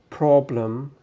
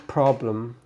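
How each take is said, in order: Both takes have the same delivery.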